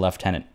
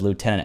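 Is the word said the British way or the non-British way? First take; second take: British; non-British. First: The word is said the British way. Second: The word is said the non-British way. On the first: "as opposed to lieutenant" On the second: "here it says lieutenant"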